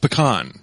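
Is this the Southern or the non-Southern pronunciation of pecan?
non-Southern. It is said in the non-Southern way. "It's pecan"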